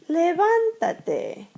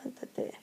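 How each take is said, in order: First: "levántate" slow, high stress on "ván"; stressed command demo. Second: Very quiet, quick "levántate"; soft repeat. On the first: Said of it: "hear the stress of the voice". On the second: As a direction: say "levántate" under your breath. Softer repeat of the modelled command. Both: Shown as a demonstration.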